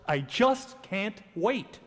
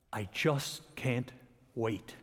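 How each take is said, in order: First: Slow, relishing eagerness with weight on "just"; joyful anticipation. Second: Low, soft and very slow, word by word; hushed anticipation. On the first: Preacher showing the congregation the tone of joy, eager anticipation. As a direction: draw out "just can't wait" with glad expectancy. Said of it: "it's joy if we say the following in this tone of voice". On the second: Preacher echoing the phrase about the coming vision, hushed anticipation. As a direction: let "wait" sink softly after a pause. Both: Shown as a demonstration.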